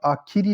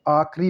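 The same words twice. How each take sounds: First: Said in the usual way. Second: आखिरी cut to two syllables, "aakh-ri"; mispronounced आखिरी. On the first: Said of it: "आखिरी लिखा जाएगा". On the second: Shown as a demonstration. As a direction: say आखिरी as "aakhri". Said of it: "आखिरी नहीं लिखा जाता".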